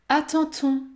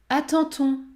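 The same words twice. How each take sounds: Both takes have the same delivery.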